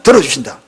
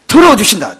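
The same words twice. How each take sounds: First: 들어주신다 repeated lower and inward, as a quiet echo; 들어주신다 as a low, reflective echo; echoed softly. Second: 들어주신다 said up and ringing, falling at the end; 들어주신다 as a bold declaration; proclaiming. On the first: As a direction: let 들어주신다 sink back low. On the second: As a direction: announce 들어주신다 to the congregation. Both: Shown as a demonstration.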